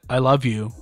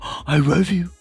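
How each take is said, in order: First: It is said plainly, without extra energy. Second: It is said gushingly, with lively, excited energy. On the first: It is a simple, matter-of-fact statement. "If you just said" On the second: It is an effusive display that excites the dog. "But if you go, ... like you have a tendency to do"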